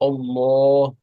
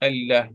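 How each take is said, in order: First: The L is heavy and dark, deep in the mouth. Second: The L is light and clear, front of the mouth. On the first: "we pronounce the name of Allah very thick" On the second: "we can pronounce the name of Allah very thin"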